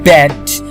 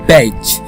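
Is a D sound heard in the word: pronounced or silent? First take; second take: pronounced; silent. First: The D sound is pronounced in the word. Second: The D sound is silent in the word. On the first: The speaker calls it wrong. "you can't actually pronounce this badge" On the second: The speaker calls it right. "D is totally silent here, and you're actually saying badge"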